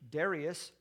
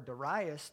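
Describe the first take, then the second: First: The name is said the standard, non-Southern way. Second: The name is said the Southern US way.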